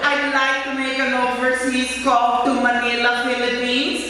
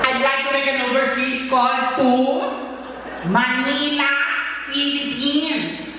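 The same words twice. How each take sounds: First: The words are spoken in a casual, ordinary way. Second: Each word is articulated with careful, deliberate enunciation.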